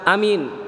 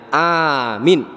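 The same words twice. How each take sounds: First: Both vowels are short. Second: Only the first vowel is long. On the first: It means became safe. "A-nya pendek, min-nya pendek" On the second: It means safe. "A-nya saja yang panjang, min-nya pendek"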